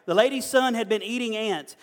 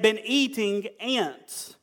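First: Said in the usual way. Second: Been eating ants drawn out slowly for effect; slow emphasis. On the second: Shown as a demonstration. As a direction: stretch been eating ants to make it land. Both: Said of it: "all right?".

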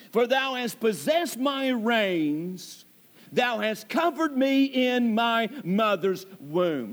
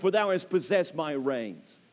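First: Slow, solemn reading of the verse; slow scripture reading. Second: Said in the usual way. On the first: Shown as a demonstration. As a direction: lay out each word of the verse slowly. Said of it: "Now look at that statement". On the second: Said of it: "Look at that statement".

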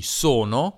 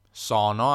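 First: "sono" with both O closed, standard Italian. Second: "sono" with both O open, Piedmont style. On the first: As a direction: say "sono" with tight closed O sounds. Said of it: "che avrebbe due O chiuse". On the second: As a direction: say "sono" with wide open O sounds. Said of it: "la O aperta". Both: Shown as a demonstration.

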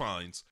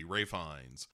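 First: Ralph Fiennes with a short A and an L; said as spelled. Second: Ray Fiennes with Rafe as the first name; pronounced Rafe. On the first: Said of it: "spelled Ralph". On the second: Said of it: "why is his first name pronounced Rafe". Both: Shown as a demonstration.

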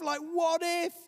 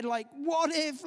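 First: Even higher panicky cry; mock anxious outburst; panicked what if. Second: Much higher, slow panicky cry; hammed-up anxious shout; panicked what if. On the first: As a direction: push the fear over the top. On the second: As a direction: fling out the fear. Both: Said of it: "It's the voice of what ifs".

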